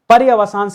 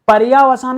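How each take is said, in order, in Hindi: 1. ya अक्षर का स्वर छोटा है। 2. ya अक्षर का स्वर लंबा है। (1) "पर्यवसान सही है" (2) "पर्यावसान मत करिएगा"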